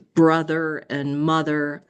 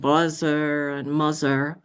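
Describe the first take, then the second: First: The th sound is made normally. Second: The th sound is replaced by another consonant.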